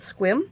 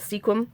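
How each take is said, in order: First: The name is said as one syllable. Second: The name is said as two syllables. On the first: This is how the locals say it. "I think they pronounce it Squim" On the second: This is the speaker's own way of saying it. "I call it Sequim"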